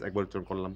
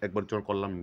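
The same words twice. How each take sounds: The two takes are said the same way.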